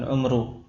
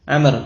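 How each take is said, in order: First: The first vowel is a rounded u sound. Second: The first vowel is an open a sound. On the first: "dengan dhammah" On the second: "dengan fathah ain"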